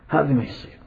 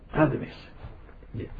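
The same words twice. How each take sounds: First: Said in the usual way. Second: هذا ما يصير whispered, no voice; whispered repeat. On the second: Shown as a demonstration. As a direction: whisper the verdict, much softer.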